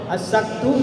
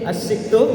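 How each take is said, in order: First: The vowel after the s is a. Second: The vowel after the s is i. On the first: "asaktu dengan fathah" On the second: "asiktu dengan kasroh"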